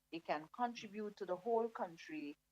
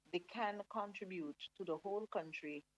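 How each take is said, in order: Both takes have the same delivery.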